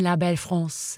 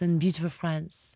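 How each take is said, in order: First: La Belle France said as in French; French pronunciation. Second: Said in the usual way. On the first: Shown as a demonstration. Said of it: "Is that how they say it over there".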